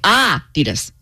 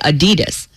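First: The stress is on the first syllable. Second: The stress is on the second syllable. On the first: This is how it is supposed to be said. The speaker calls it right. "We're supposed to say Adidas" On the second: This is how it is said in America. The speaker calls it wrong. "We say Adidas. And I would stressing the second"

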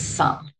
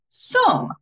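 First: It is pronounced the usual everyday way. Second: It is pronounced as the spelling rule suggests. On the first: The speaker calls it right. "but it's not some, it's some" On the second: The speaker calls it wrong. "if you understand the rules of phonics, that is some"

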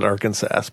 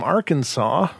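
First: The word ends like 'Kansas' with a final s. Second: The word ends with a 'saw' sound. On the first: This follows the spelling, though nobody says it. "I don't think anybody ever calls it Arkansas, but that's how it's spelled" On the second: This is how people normally say it. "depending on your pronunciation"

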